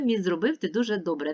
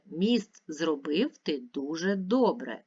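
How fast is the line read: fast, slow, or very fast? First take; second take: very fast; slow. First: The line is read at a very fast pace. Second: The line is read at a slow pace. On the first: "Ще швидше" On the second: "Тепер читаємо разом"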